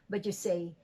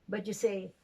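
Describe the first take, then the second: The two takes are said the same way.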